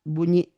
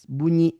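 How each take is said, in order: Both takes have the same delivery.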